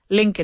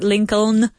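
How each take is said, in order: First: The middle L sound is silent. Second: The middle L sound is pronounced. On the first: The speaker calls it right. "we don't say that L. We say Lincoln" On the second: The speaker calls it wrong. "not Lincoln"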